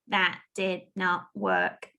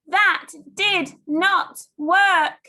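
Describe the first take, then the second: First: The sentence is said in a flat robot voice. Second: The sentence is shouted loudly. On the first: "And robot it for me" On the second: "Shout the sentence for me"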